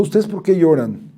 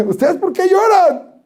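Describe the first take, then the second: First: Said in the usual way. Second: High, slow "lloran" with a laugh through it; laughing question. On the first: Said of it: "le preguntó". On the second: Shown as a demonstration. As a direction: ask "¿Ustedes por qué lloran?" high and slow, laughing. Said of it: "Muy, así".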